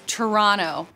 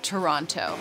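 First: It is said the local Canadian way. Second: It is said the outsider, non-Canadian way. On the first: This is how people from the country say it. The speaker calls it right. "It's Toronto" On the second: This is how outsiders say it. The speaker calls it wrong. "not Toronto"

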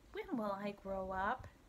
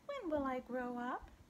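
First: The voice stays at a normal reading pitch. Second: The voice is raised to a high pitch.

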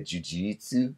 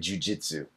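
First: It is said with a Brazilian accent. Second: It is said with an English pronunciation. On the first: "If you meet the Brazilians, they say jujitsu" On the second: "what we say jujitsu in English"

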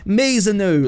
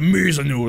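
First: The voice is light and youthful. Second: The voice is deep, old and gruff. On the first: The speaker calls it wrong. "my 16-year-old Warden impression" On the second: The speaker calls it right. "like really old gruff, like he's a warrior"

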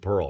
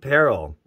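First: The word is said with one syllable. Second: The word is said with two syllables.

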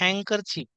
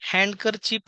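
First: The d sound is left out of the word. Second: The d sound is pronounced in the word. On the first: The speaker calls it right. "डी हे silent letter असल्यामुळे" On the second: The speaker calls it wrong. "आपण नेहमी हँडकर चिप म्हणतो"

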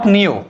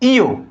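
First: The letter name begins with an n sound. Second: The letter name begins without an n sound. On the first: The speaker calls it wrong. "Not নিও" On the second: The speaker calls it right. "এইটা হবে ইও"

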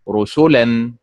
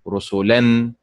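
First: The stress is on the middle syllable. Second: The stress is on the last syllable. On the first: "ولا تنطق رسلا مثل فعل" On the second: "ولا تنطق رسلا مثل فعل"

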